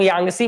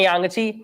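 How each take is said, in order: First: यांगसी said yang-si, with an "s" sound; SI variant. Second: यांगची said yang-chi, with a "ch" sound; CHI ending. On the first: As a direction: end यांगसी on "si" instead of "chi". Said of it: "कई लोग यांगसी बोलते हैं". (यांगसी में "स" की आवाज़) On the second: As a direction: end यांगची on a clear "chi". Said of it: "ऐसे ही बोलते हैं यांगची". (यांगची में "च" की आवाज़) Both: Shown as a demonstration.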